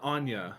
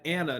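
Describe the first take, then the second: First: The name has a y sound in the middle. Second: The name has no y sound in the middle. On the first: The speaker calls it right. "There is a Y in her name" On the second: The speaker calls it wrong. "it said Anna, not Anya"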